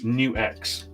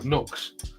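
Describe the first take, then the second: First: It is said as 'new' plus 'ex'. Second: It is said as one syllable, 'nucks'. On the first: The speaker calls it right. "It's actually NewX" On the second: The speaker calls it wrong. "People go Nux"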